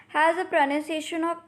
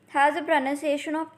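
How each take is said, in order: No difference in how they are said.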